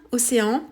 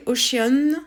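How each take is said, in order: First: "océan" said as a French word; French pronunciation. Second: "Ocean" said as an English word, drawn out; English pronunciation. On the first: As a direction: say "océan" the French way, in three syllables. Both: Shown as a demonstration. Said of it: "quoi, en français".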